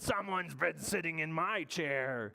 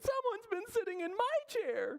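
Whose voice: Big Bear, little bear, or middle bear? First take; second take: Big Bear; middle bear. First: It is said in Big Bear's voice. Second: It is said in middle bear's voice.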